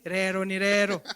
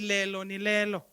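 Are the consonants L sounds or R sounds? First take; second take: R sounds; L sounds. First: The words are said with R sounds. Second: The words are said with L sounds. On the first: The speaker calls it right. "You have to say rero ni rero" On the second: The speaker calls it wrong. "you can't say lelo ni lelo"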